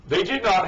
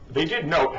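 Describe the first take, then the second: First: "not" said with a short open o, rhyming with "hot"; misreading. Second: "note" said with a long o, rhyming with "boat"; corrected reading. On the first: Commentator misreading the article, "not" with a short vowel. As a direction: misread the word as "not", high-pitched. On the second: Commentator correcting his misreading, "note" with a long o. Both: Real, not acted. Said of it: "they did note, however".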